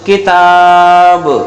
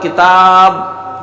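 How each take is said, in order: First: The final b is released with an echoing bounce. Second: The final b stops with the lips held closed. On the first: The speaker calls it right. "जब इसे पढ़ेंगे तो आवाज लौटती मालूम देगी" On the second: The speaker calls it wrong. "इसमें कलकला नहीं हुआ"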